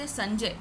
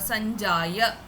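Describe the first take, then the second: First: The word ends on a consonant, final vowel dropped. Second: The word ends with a full final vowel. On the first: This is the Hindi way of saying it. The speaker calls it wrong. "you cannot say Sanjay" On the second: This is the full pronunciation for chanting. The speaker calls it right. "it is Sanjaya"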